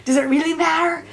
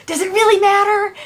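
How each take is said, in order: First: Said in the usual way. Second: "really" pushed higher and louder; stress on really. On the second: Retold or imitated. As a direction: lean hard on "really".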